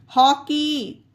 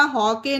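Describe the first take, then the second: First: "हॉकी" ending in long ee; correct vowel. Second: "हॉके" ending in ay; wrong vowel. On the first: Teacher reading out an exception, "हॉकी" ending in ee. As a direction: say "हॉकी" with ee at the end. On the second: Teacher rejecting a misreading, "हॉके" ending in ay. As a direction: say "हॉके" with ay instead of ee. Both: Shown as a demonstration. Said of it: "हॉके नहीं पढ़ा".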